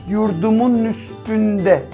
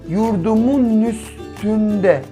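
No difference in how they are said.

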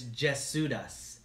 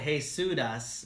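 First: The name is pronounced in a non-Hispanic way. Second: The name is pronounced in a Hispanic way. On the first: The speaker calls it right. "but it's Jesudas" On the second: The speaker calls it wrong.

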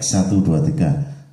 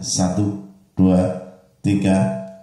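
First: The voice sounds thick and doubled. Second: The voice sounds single, with mids boosted. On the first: "suaranya tambah tebal ya. Kalau saya rasakan suaranya seperti suara double ya" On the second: "Sekarang yang mid kita tonjolkan suaranya"

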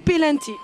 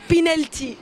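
First: The word is said with the Tunisian pronunciation. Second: The word is said with the standard pronunciation. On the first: "التوانسه ردوها بينالتي" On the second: "النطق صح بينالتي"

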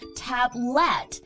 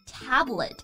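First: The stress is on the second syllable. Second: The stress is on the first syllable. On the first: The speaker calls it wrong. "很多同学呢会读成tablet. No" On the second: The speaker calls it right. "它的重音在第一个音节"

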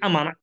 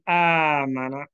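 First: The alif vowel is said short. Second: The alif vowel is stretched long. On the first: The speaker calls it wrong. "don't say amana, but amana is wrong" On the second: The speaker calls it right. "say amana"

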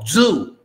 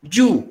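First: The word starts with a z sound. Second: The word starts with a j sound. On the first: The speaker calls it right. "no, zoo" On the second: The speaker calls it wrong.

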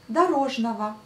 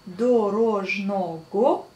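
First: Unstressed o sounds like a, ending in va. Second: It is read as spelled, with o and g. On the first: "mais on prononce дорожного" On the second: "on écrit дорожного"

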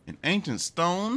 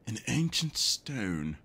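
First: It is read in the speaker's ordinary voice. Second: It is read in a put-on mummy voice.

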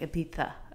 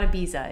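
First: The middle consonant is made with the tongue. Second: The middle consonant is a plain z sound. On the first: The speaker calls it right. "it's like Ibiza" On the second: The speaker calls it wrong. "it's not Ibiza"

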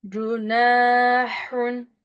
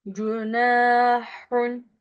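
No difference in how they are said.

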